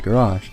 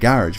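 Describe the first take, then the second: First: Garage is pronounced a non-British way. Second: Garage is pronounced the British way. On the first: "some people say garage" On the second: "I live in the U K and we say garage"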